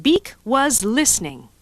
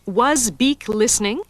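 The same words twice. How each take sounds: First: Flat statement read out slowly. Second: Slow question, rising at the end; read as a question. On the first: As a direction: read it as a plain statement, falling at the end. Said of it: "Is this a declarative sentence?". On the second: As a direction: ask it slowly, voice going up on "listening". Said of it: "Is this an interrogative sentence?". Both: Shown as a demonstration.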